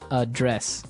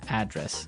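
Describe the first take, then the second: First: The stress is on the second syllable. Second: The stress is on the first syllable.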